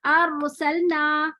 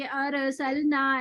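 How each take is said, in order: First: अरसलना very slowly, with the रॉ set moving; slow wrong take. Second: अरसलना very slowly, the रॉ pulled open; slow demo. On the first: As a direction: stretch अरसलना, moving the रॉ as a mistake. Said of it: "इसमें रॉ को हिला देंगे". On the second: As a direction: demonstrate अरसलना slowly, the way not to read it. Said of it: "ऐसे नहीं पढ़ना". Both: Shown as a demonstration.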